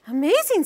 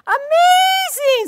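First: Louder, slightly raised amazement; amazed judge. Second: Very high, loud, slow shout; big amazement. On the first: Judge marvels at Samuel, mildly amazed. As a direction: say amazing with mild wonder. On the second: Judge shouts in amazement, very high and loud. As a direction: belt out amazing way up high. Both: Shown as a demonstration. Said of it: "We did the high-low".

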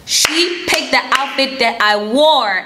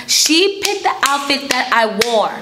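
First: "wore" drawn out slowly with weight; slow down and lean on "wore"; slow emphatic repeat. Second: Said in the usual way. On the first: Real, not acted.

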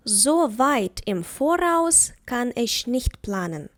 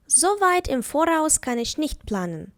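First: Slow, careful dictation of the sentence; slow example. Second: Said in the usual way. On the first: Shown as a demonstration. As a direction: say it slowly, word by word, for learners. (повільно, по словах)

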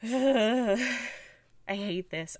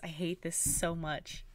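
First: Drawn-out groan. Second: Said in the usual way. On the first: Real, not acted.

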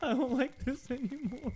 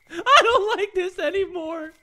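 First: Muttered. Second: High, whimpering complaint; half-sob it out; mock-tearful whine; whiny crying. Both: Real, not acted. Said twice after scare.

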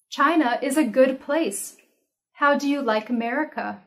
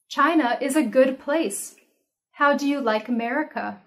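The two takes are said the same way.

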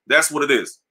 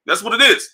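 First: Said in the usual way. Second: Higher playful repeat. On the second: Acted. Sneakerhead punchline repeated, thrown up high and playful. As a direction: lift "is" up high like a tease.

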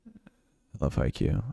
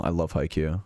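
First: "I love Haikyuu" stretched slow, each word lingered; drawn-out fond repeat. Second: Said in the usual way. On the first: Real, not acted. Streamer repeating his love of Haikyuu to chat, slow and drawn out. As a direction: savour the repeat slowly. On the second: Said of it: "Will you watch the movie of Haikyuu?".

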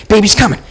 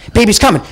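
Both takes have the same delivery.

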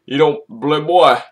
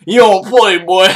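First: Said in the usual way. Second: Higher, louder hype call; hyped up. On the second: Real, not acted. Vlogger hyping up Quincy's punch, pumped hype call. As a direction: shout the catchphrase, pumped.

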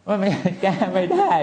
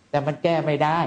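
First: Laughing repeat. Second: Said in the usual way. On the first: Real, not acted. Monk repeating to the doctor, laughing and much higher.

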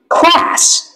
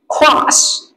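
First: American "Class." with a flat front a as in cat; "Class." with the American vowel; American English. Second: British "class." with a long open ah vowel; British English. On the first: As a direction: say "Class." the American way, short bright a. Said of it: "Anh Mỹ". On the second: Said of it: "Anh Anh". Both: Shown as a demonstration.

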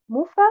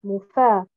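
First: Mufa stressed on the first haraka; first-syllable stress. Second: Mufa stressed on the second haraka, lower; second-syllable stress. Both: Shown as a demonstration. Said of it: "C'est entre ces deux".

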